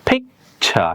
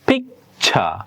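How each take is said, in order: No difference in how they are said.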